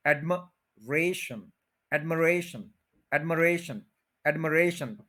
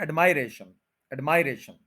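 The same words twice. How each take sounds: First: एडमरेशन with a short "muh", stress on "re"; correct pronunciation. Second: एडमायरेशन with "my" in the middle; wrong pronunciation. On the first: Teacher modeling the right admiration, stressing re. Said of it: "third के ऊपर stress है". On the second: Teacher showing the mistake in admiration. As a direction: say the common wrong version. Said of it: "ये गलत है". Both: Shown as a demonstration.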